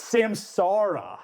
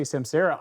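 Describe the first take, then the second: First: Samsara as sam-SAR-ah with a pirate arr. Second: Samsara as sam-SAIR-uh, air vowel; wrong pronunciation. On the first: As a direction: Samsara slow and drawn out, hard R. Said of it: "say it like a pirate". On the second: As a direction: Samsara with the middle a like Sarah. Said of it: "people say Samsara". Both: Shown as a demonstration.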